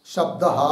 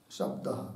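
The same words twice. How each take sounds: First: Said in the usual way. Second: Breathed out in a soft whisper; whispered repeat. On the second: Shown as a demonstration. Teacher repeating the dictated word to herself, whispering. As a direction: whisper the word back to yourself. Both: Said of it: "teacher repeats word while dictating".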